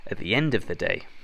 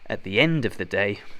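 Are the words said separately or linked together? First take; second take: linked; linked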